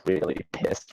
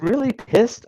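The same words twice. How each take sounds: First: Whispered, lower, baffled; puzzled aside; muttered to himself. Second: Pitched way up in disbelief; scoffing air-quote voice; incredulous mock. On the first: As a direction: mutter the phrase under your breath. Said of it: "What does that even mean?". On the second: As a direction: treat the phrase as absurd. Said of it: "a technical term?". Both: Shown as a demonstration.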